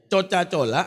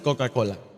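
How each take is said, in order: First: The C letters keep their Indonesian letter sound. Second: The C letters are said as a k sound. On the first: This follows the local language's letter rules. "Coca-Cola adalah bahasa kita... tetap C... Tidak akan berubah menjadi K" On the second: This follows the name's original language. "Kita sebut Coca-Cola"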